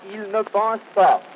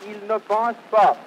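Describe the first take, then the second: No difference in how they are said.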